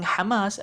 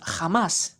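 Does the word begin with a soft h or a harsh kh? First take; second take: soft h; harsh kh. First: It begins with a soft h sound. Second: It begins with a harsh kh sound.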